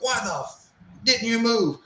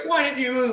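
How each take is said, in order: First: High yell, swear bitten off; drill instructor yell with swear. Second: High, shouted drill sergeant; drill instructor yell. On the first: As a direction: start the swear, cut it off. First take, cut off by self-edit. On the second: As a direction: bark it like a furious drill instructor. Drill instructor repeats his yell. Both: Retold or imitated.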